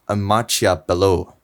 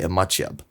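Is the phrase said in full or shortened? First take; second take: full; shortened. First: The phrase is said with its full endings. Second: The phrase is said with its ending cut short. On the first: This is formal speech. "At a school, you'll usually learn formal speech. So I would say" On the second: This is fast informal speech. "with fast informal speech, you'll say"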